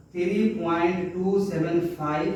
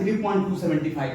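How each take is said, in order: First: Each digit after the point said singly, "टू सेवन फ़ाइव"; right way of reading. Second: सेवेंटी फ़ाइव read as one number after the point, "three point two सेवेंटी फ़ाइव"; wrong way of reading. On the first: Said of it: "single, single number को पढ़ा जाता है". (दशमलव के बाद "सेवन फ़ाइव" अलग-अलग अंक पढ़ें) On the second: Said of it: "ऐसे नहीं पढ़ना है". (दशमलव के बाद "सेवेंटी फ़ाइव" एक संख्या की तरह पढ़ें) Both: Shown as a demonstration.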